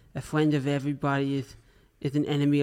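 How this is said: It is said in a put-on imitation of another's voice. "just to fulfill my end of the bargain"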